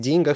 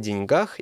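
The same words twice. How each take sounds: First: The stress falls on the first syllable. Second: The stress falls on the final syllable. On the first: "допускают другое ударение, но только в устойчивом выражении" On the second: "ставьте ударение на окончание... правильно говорить о деньгах"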